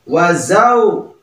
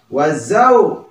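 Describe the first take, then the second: Both takes have the same delivery.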